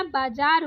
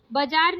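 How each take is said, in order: First: बाजार with a long baa; correct long first vowel. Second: बाजार with a short first a; wrong short first vowel. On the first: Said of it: "बाजार होता है". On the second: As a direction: say बाजार as "buh-jaar". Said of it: "बाजार नहीं होता". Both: Shown as a demonstration.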